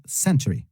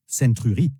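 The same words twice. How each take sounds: First: Century in two quick syllables, "SEN-tree"; correct century. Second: Century said French-style, with a French u in "-tury"; mispronounced century. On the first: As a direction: say century with a reduced ending and no French u. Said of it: "mais plutôt century". (century bien prononcé, « sèn-tri », sans le u français) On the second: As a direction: say century wrongly as "sen-tru-ri", each syllable sounded. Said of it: "qui ne se prononce pas century". (century mal prononcé, à la française, « sèn-tru-ri ») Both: Shown as a demonstration.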